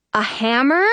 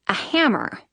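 First: "A hammer" rising at the end; questioning. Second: "A hammer" with a falling end; falling statement. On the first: Narrator doubts what she sees, "A hammer" rising. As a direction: ask "A hammer" in disbelief, pitch climbing. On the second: Narrator spots the hammer, "A hammer" falling. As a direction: state "A hammer" as a finished fact. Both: A narrator's reading.

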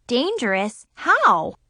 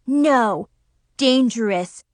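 First: Questioning rise on "Dangerous?"; puzzled question. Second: "dangerous" said firmly with a falling tune; firm warning. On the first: Narrator asks her friends, puzzled questioning rise. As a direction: ask "Dangerous?" in disbelief. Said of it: "I asked". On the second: Zoe corrects Nikki, firm falling "dangerous". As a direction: lean hard on "dangerous". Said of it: "Zoe warned". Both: A narrator's reading.

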